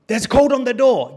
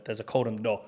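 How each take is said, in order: First: Much higher and louder retort; exasperated insistence. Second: Said in the usual way. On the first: Retold or imitated. Host insisting to a locked-out guest, exasperated. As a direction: loudly imitate a stubborn host insisting. Acted argument over door code.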